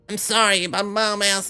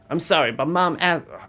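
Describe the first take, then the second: First: It is said in a put-on child's voice. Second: It is said in a normal adult voice.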